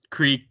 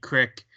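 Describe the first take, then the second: First: Said in the usual way. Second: "crick" with a short i, as in brick; Pittsburgh pronunciation. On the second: Shown as a demonstration. Pittsburgh form of creek shown.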